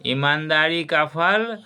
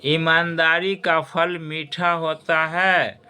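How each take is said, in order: First: Said in the usual way. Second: ईमानदारी का फल मीठा होता है said slowly, each word weighed; slow moral emphasis. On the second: Shown as a demonstration. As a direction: teach the moral slowly to the students. (छात्रों को धीरे से सीख बताते हुए) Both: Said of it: "बंधुओं और खास करके छात्र छात्राओं".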